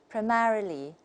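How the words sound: It is said with an American accent. "and that's American"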